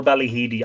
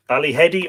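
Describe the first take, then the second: First: Second Ballyhedy with a long E, like "heed"; Ballyhedy with "heed" in the middle; alternative pronunciation. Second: First Ballyhedy with a short E, like "head"; Ballyhedy with "hed" in the middle; alternative pronunciation. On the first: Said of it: "uh, a pronunciation?". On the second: I'm not sure. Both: Shown as a demonstration.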